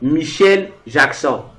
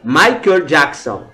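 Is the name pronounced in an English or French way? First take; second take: French; English. First: The name is pronounced the French way. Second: The name is pronounced the English way. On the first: "Mais en français, on disait" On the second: "En anglais, on disait"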